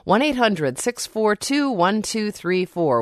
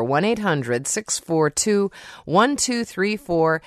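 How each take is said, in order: First: Said in the usual way. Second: Slow, careful reading of the phone number; slower repeat of the number. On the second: Shown as a demonstration. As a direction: say each digit slowly so listeners can write it down.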